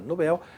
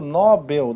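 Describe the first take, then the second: First: The stress is on the last syllable. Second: The stress is on the first syllable. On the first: The speaker calls it right. "Nobel é uma oxítona" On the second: The speaker calls it wrong. "E aí está errado"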